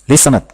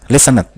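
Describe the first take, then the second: Both takes have the same delivery.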